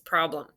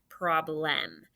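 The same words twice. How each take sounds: First: The second syllable has a weak schwa vowel. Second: The second syllable has a full clear E vowel. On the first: The speaker calls it right. "Mm-mm, it's problem" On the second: The speaker calls it wrong. "It's an E, even though we don't say problem. Nobody hardly talks, hardly anybody talks like that"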